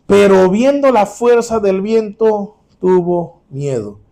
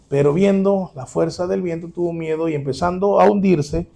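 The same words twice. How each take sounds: First: "Pero viendo la fuerza del viento, tuvo miedo" read very slowly and loud, stretching "viendo"; slow dramatic reading. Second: Said in the usual way. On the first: Shown as a demonstration. Preacher reads the verse slowly to the congregation, dramatic. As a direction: draw out "viendo" and the whole line slowly.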